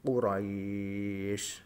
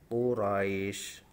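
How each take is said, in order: First: The vowel before the final sound is held very long. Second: The vowel before the final sound is held briefly. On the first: "tiga alif atau enam harokat" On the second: "Ini yang contoh satu alif"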